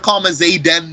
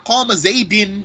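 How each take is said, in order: First: The name ends with an a vowel. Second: The name ends with an i vowel. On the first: "I can't say here qama zaydan with a fatha" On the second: "I can't say here qama zaydin with a kasra"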